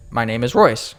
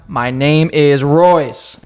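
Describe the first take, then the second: First: Said in the usual way. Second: "My name is Royce" drawn right out; slow, emphatic repeat. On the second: Retold or imitated. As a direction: say each word very slowly for someone not getting it. Repeating name to uncomprehending cashier.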